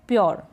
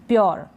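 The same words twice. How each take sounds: Both takes have the same delivery.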